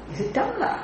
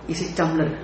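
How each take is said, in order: First: Tumbler swung up much higher, doubting; mock disbelief, soft and high; incredulous high rise. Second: Said in the usual way. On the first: Shown as a demonstration. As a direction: ask as if the idea is absurd. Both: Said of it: "You won't say".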